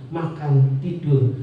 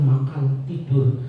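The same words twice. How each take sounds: The two takes are said the same way.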